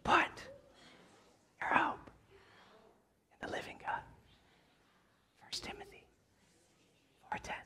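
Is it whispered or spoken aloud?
whispered. It is whispered with no full voice.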